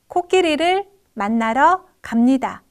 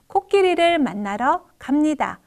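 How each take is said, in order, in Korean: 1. 낱말마다 하나씩 쉼이 있습니다. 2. 쉼은 의미 단위 사이에만 있습니다. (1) "어절 단위로 읽는 모습" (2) "의미 단위로 띄어읽는 모습"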